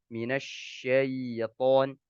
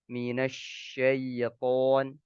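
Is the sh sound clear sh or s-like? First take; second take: clear sh; clear sh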